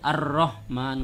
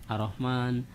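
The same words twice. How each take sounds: First: The r sound is held long. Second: The r sound is said short. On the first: The speaker calls it right. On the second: The speaker calls it wrong.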